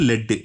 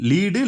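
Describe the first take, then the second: First: It has a short 'e' vowel, 'led'. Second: It has a long 'ee' vowel, 'leed'. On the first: "அதே மாரி லெட்டுன்னும் பண்றோம்" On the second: "லீடுன்னும் ப்ரொனன்சியேட் ப்ரொனன்சியேட் பண்றோம்"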